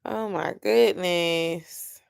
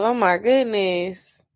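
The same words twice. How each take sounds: First: Slow, soft, worn-out groan; weary and deflated. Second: Slow exasperated groan; fed up, drawn out; exasperated sigh. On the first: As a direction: say it drained and done. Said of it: "I already answered that twice". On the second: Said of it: "how many questions does this thing have". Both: Real, not acted.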